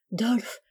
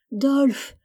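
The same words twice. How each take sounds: First: Said in the usual way. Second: Crying out a name in pain; desperate cry. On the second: Acted. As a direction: wail the name, rising high. (appel désespéré) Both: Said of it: "criait sans cesse Rieg-G".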